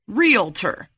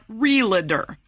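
First: The L comes right after the vowel: real-tor. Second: A vowel is added after the L: re-la-tor. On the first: The speaker calls it right. "the L is after the A" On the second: The speaker calls it wrong. "not before it"

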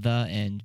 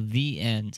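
First: The word 'the' is said like 'thuh'. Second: The word 'the' is said like 'thee'. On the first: The speaker calls it right. "We need to be saying the end because that's how you say the" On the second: The speaker calls it wrong. "I always say it. I go"

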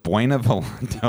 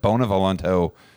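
First: The first syllable sounds like 'bway'. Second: The first syllable sounds like 'bo'. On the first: The speaker calls it wrong. "I said Buena Volanto. And I was like, damn it" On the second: The speaker calls it right. "I said Bona Volanto 2 minutes ago"

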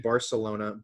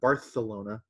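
First: The c is said as an s sound. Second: The c is said as a th sound.

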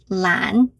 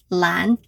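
No difference in how they are said.

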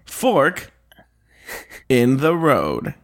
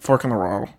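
First: The words are crisp, like a news reporter. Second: The words are swallowed and run together. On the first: "You did sound like a news, kind of like cheesy news reporter" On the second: "you land up swallowing your words"

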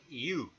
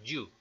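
First: The y is a soft vowel-like glide. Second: The y is a hard Spanish-style consonant. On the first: The speaker calls it right. "se dice you" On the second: The speaker calls it wrong. "No se dice you"

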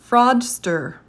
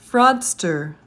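No difference in how they are said.

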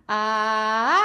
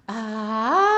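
First: The voice is clear with firm closure. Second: The voice is breathy with extra air.

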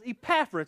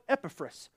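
First: The name is said in an Oklahoma accent. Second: The name is said without an Oklahoma accent. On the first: The speaker calls it right. "my Oklahoma accent that says Epaphras" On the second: The speaker calls it wrong. "They pronounce it differently"

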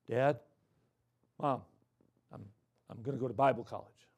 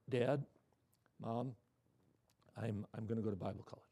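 First: It is said in a louder voice. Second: It is said in a quiet voice.

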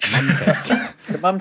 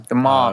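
First: The word is said with a British vowel. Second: The word is said with an American vowel.

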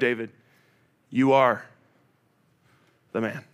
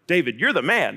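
First: It sounds like a serious, pointed accusation. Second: It sounds like casual, admiring praise.

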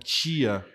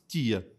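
First: The t sounds like ch, Bauru style. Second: The t is plain, Jaú caipira style.

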